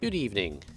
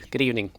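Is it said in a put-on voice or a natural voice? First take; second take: put-on; natural. First: It is said in a put-on waiter voice. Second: It is said in his natural voice.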